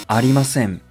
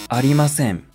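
The two takes are said the same way.

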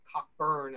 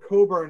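First: The name is said with a middle k sound. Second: The name is said without a middle k sound. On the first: This is how Americans say it. "as we Americans did" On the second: This is how the British say it. "as the British pronounced it"

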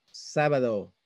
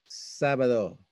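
The two takes are said the same way.

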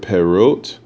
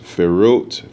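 First: The word begins with a P sound. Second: The word begins with an F sound.

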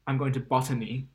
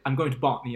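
First: It is said with a strong Asian accent. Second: It is said without an Asian accent.

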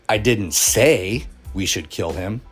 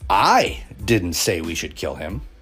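First: The stress is on the word say. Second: The stress is on the word I.

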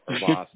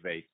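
First: The word is given a fancy, posh pronunciation. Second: The word is given a plain, ordinary pronunciation. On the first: "I don't know how to pronounce it" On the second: "I'm not fancy, so I guess I'd just say vase"

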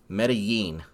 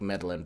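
First: The double L is said like a y. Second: The double L is said like an l. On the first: "He says it's Medellin" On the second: "I like meddling better"

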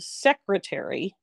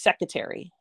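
First: The first R sound is clearly pronounced. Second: The first R sound is left out. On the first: The speaker calls it right. "instead of secretary" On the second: The speaker calls it wrong. "They don't put the R. There's no R in secretary"

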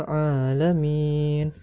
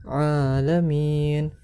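No difference in how they are said.

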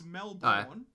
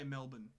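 First: The second syllable has a full, clear vowel. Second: The second syllable has a reduced, rounded-off vowel. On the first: This is how the word is spelt. "It's Melbourne" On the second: This is how locals actually say it. "but we just say Melbourne. ... we just round it off"

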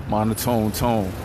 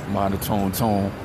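Both takes have the same delivery.

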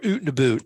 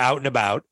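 First: It is said in a mock Canadian accent. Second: It is said in a plain, neutral accent.

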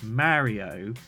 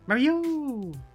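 First: It is said in an ordinary voice. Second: It is said imitating Princess Peach's voice.

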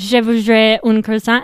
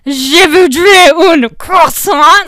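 First: It is said in a relaxed, casual, unexaggerated way. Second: It is said with forceful, spitting, exaggerated articulation. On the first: The speaker is confident and at ease. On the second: The speaker is unsure and trying hard.

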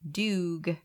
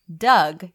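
First: The vowel sounds like the 'oo' in 'dude'. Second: The vowel sounds like the one in 'dug'. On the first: "in French, they pronounce it Doug" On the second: "like Doug, D-O-U-G"

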